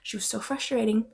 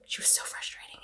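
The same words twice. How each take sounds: First: Said in the usual way. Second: Much softer whispered repeat; whispered exasperation. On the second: Real, not acted. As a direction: hiss it under your breath.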